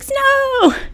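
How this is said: It is said with excited surprise, like a party.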